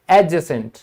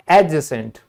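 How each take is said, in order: Both takes have the same delivery.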